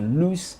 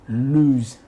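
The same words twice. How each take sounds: First: The word ends with a hissing S sound. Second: The word ends with a buzzing Z sound. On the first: The speaker calls it wrong. "You don't say" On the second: The speaker calls it right. "You say"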